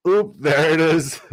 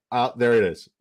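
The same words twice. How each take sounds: First: Higher, louder, slow sing-song chant of oop there it is; chanted catchphrase. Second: Said in the usual way. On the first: Pretend. Streamer chants the catchphrase at his draft rival, slow and louder.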